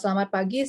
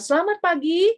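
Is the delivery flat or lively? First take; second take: flat; lively. First: The pitch stays flat with no rise or fall. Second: The pitch moves up and down with energy. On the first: The speaker calls it wrong. "tidak ada tinggi rendahnya" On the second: The speaker calls it right. "itu ada naik turunnya"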